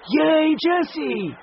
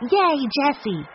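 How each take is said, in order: First: Higher, louder, slow stretched cheer; drawn-out cheer. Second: Higher, louder cheer; cheering shout. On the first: The children cheer Jessie again, slower and stretched. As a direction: draw the cheer out long. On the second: The children cheer loudly for their sister Jessie. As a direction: cheer for her across the field. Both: A narrator's reading. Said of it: "and shouted".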